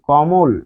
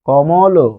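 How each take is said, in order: First: The word ends abruptly on the final consonant. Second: The word ends with an added final vowel. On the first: The final letter has no inherent vowel. "যখন কমল বলছেন তখন থেমে যাচ্ছেন।" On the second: The final letter keeps its inherent vowel. "তখন কিন্তু কমল বললে অ থাকতো"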